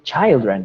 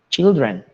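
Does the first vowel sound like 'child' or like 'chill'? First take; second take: child; chill. First: The first vowel sounds like the one in 'child'. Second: The first vowel sounds like the one in 'chill'. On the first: The speaker calls it wrong. "Algunas personas se confunden y cuando ven children, no pronuncian" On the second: The speaker calls it right. "no, no, children"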